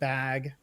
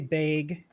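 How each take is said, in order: First: The word is said in a standard accent. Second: The word is said in a regional dialect.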